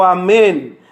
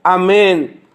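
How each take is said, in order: No difference in how they are said.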